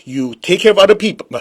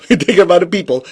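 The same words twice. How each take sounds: First: Said in the usual way. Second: Quick, laughing repeat of take care of other people; chuckling as you rush it out. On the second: Shown as a demonstration. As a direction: say it again through a laugh, faster.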